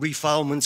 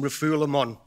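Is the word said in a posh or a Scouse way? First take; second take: Scouse; posh. First: The word is said in a Scouse accent. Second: The word is said in a posh, French-like way. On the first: The speaker calls it wrong. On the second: The speaker calls it right.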